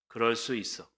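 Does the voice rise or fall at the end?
fall. The voice falls at the end, like an exclamation.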